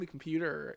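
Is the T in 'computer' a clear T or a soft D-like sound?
soft D. The T sounds like a soft D.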